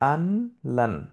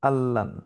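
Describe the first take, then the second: First: The n is sounded before the l. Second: The n becomes a doubled l sound. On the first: "এটা অ্যাকচুয়ালি শব্দটা ছিল আনলান" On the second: "এই নুনটা লামে পরিণত হয়ে গেছে"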